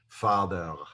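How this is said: It ends with a throaty Hebrew-style R sound. The speaker calls it right. "this word would be pronounced in Hebrew"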